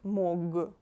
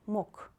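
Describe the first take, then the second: First: The final consonant is a voiced G. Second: The final consonant is a voiceless K. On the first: The speaker calls it wrong. "not mog" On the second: The speaker calls it right. "you read it like mok"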